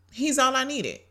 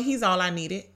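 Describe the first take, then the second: First: "all" lifted higher and leaned on in "He's all I needed"; second take, "all" high and weighted; stress on all. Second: Said in the usual way. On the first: Real, not acted. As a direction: repeat it, pushing up on "all".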